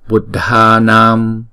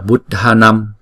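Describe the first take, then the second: First: The final a vowel is held for two beats. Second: The final a vowel is short. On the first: The speaker calls it right. "chữ a có dấu gạch ngang chúng ta phải đọc hai nhịp" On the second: The speaker calls it wrong. "đừng đọc là Buddhanam"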